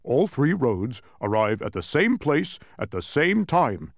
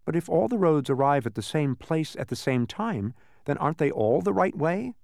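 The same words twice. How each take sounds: First: Louder, slow, emphatic announcement; measured, forceful answer, pitched up; interrupting Tok. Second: Higher-pitched, lightly voiced query; mildly puzzled, rising question; questioning Milo. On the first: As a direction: cut in firmly with the solution. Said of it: "interrupted Tok". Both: A narrator's reading.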